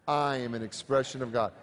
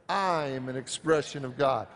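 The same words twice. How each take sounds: The two takes are said the same way.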